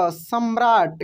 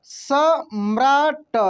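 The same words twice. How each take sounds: First: Said in the usual way. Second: सम्राट stretched very slowly; slow spelling-out. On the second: Shown as a demonstration. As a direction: model सम्राट slowly for pupils. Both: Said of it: "क्या पढ़ेंगे?".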